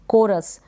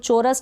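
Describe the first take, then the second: First: The word begins with a k sound. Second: The word begins with a ch sound. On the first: The speaker calls it right. "सी के बाद में H है, उसको हम pronounce नहीं कर रहे हैं" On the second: The speaker calls it wrong. "इसको चोरस ना पढ़ें"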